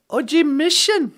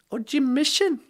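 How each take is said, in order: First: "O G Mission" stress on G, falling; Ojibwe phrase. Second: "O G Mission" quieter, stress on Mission; softer Ojibwe phrase. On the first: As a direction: say "O G Mission" hitting the G. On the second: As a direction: say "O G Mission" gently, leaning on Mission. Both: Shown as a demonstration. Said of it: "our Ojibwe phrase of the day".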